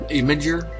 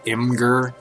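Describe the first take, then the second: First: The name is said like the word imager. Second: The name is said with two syllables, im-gur. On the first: The speaker calls it right. "I think that's the way it's supposed to be" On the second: The speaker calls it wrong. "I've always just pronounced it, oh, I'm embarrassed, Imgur, because that's the way it's spelled"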